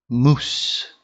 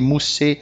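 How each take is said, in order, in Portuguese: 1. A palavra termina de forma seca no S final. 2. Um som de vogal é acrescentado depois do S final. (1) "A gente vai parar a pronúncia na letra anterior" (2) "o pessoal acha que tem que pôr E no final das coisas"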